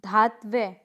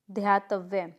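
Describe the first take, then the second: First: धात्व्य starting with plain "dhaa"; incorrect pronunciation. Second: ध्यातव्य as dhyaa-tav-ye; correct pronunciation. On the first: Teacher showing a mistake, धात्व्य without the y glide. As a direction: say धात्व्य as dhaat-vye. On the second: Teacher correcting the class, ध्यातव्य in three syllables. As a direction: glide through "dhyaa" in ध्यातव्य. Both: Shown as a demonstration. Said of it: "देखिए".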